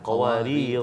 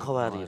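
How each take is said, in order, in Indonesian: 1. Kata ini berakhir dengan vokal panjang di akhir. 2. Kata ini berakhir dengan konsonan, tanpa vokal. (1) "bila waqaf kita baca panjang" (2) "bukan qawarir"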